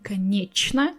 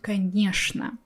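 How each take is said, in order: First: The middle consonant is pronounced as ch. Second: The middle consonant is pronounced as sh. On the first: "I'm not saying конечно" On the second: "I'm saying конечно ... will be pronounced with sh sound"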